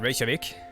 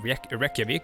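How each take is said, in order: First: The word is said with a 'sh' sound. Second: The word is said without a 'sh' sound. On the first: The speaker calls it right. "The sh sound" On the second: The speaker calls it wrong. "It's not Reykjavik"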